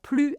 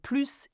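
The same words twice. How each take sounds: First: "plus" said as "plu", no s; French "plus" ending on the vowel; silent final s. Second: "plus" said as "plooss", s heard; French "plus" with its last consonant pronounced; sounded final s. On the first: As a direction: drop the last consonant of "plus". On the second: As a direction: finish "plus" on a clear s. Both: Shown as a demonstration. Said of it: "plus and plus is an exception".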